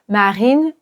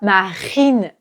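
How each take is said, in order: First: The R is light and barely pronounced. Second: The R is strong and harsh from the throat. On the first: The speaker calls it right. "c'est très léger" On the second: The speaker calls it wrong. "C'est trop, c'est trop violent"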